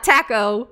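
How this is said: Taco is said with a British pronunciation. The speaker calls it wrong. "not taco"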